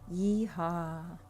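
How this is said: It is said in a sad tone.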